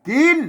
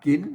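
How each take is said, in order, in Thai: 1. คำว่า "กิน" ออกเสียงสูง 2. คำว่า "กิน" ออกเสียงจัตวา (1) "ใส่วิจีกินอ่ากินใช่ไหมเสียงตีใช่ไหม" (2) "ใส่ไม่จัตวากิน"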